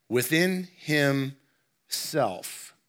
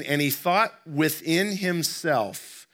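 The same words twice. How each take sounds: First: Within himself drawn out very slowly, every word weighted; stress on within himself. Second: Said in the usual way. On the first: Shown as a demonstration. Preacher repeating "within himself" very slowly for emphasis. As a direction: pastor stressing "within himself" for the congregation, slow and deliberate. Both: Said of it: "I put an emphasis on these words".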